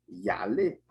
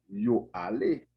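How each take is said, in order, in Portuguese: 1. O pronome se junta ao verbo como uma palavra só. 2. O pronome é uma sílaba separada e completa. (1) "então o som vai ficar yale" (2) "E se a gente tem yo ale"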